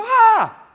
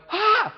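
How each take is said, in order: First: Loud high mock child wail; child's wail. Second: Sharp high mock gasp of alarm; alarmed parent gasp. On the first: Toddler copying the parent's panic, loud high wail. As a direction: wail back like a startled toddler. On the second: Parent shrieking at a fallen toddler, sharp high gasp. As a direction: gasp in panic at the fall.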